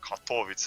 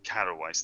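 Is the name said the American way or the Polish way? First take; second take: Polish; American. First: The name is said with a Polish pronunciation. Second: The name is said with an American pronunciation. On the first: The speaker calls it right. "Katowice or whatever the Polish say" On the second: The speaker calls it wrong. "American pronunciations with the like they say Katowice"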